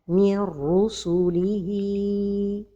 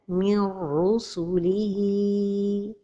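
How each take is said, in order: First: The n merges into r with no nasal hum. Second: The n merges into r with a nasal hum.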